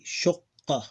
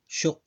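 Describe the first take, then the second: First: The word ends with a final vowel sound. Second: The word ends on a consonant, vowel dropped.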